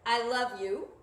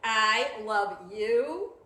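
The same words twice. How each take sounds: First: It sounds perfunctory and flat. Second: It sounds really mad and angry.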